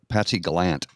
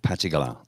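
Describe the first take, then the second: First: The name is said in an Ontario accent. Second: The name is said without an Ontario accent. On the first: "as they said in Ontario" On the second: "That's right"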